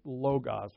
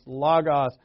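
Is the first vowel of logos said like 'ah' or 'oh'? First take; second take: oh; ah. First: The first vowel sounds like 'oh'. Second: The first vowel sounds like 'ah'. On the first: "you're probably more familiar with logos" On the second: "they pronounce that middle O as a instead of an O. So it's logos"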